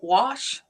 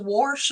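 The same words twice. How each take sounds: First: It is said without a Missouri accent. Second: It is said with a Missouri accent. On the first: "instead of wash" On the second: "Is it Missouri that says wash"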